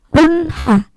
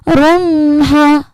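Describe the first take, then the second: First: The n is clear with no nasal hum. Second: The n is held with a nasal hum. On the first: The speaker calls it right. "Di situ Bunda bacanya tidak dengung" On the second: The speaker calls it wrong. "bukan runha, bukan dengung"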